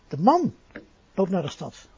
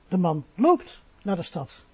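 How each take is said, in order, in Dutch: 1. Het woord 'man' krijgt de hoofdklemtoon. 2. Het woord 'loopt' krijgt de hoofdklemtoon. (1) "Niet de vrouw, maar de man" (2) "Hij rijdt niet, maar hij loopt"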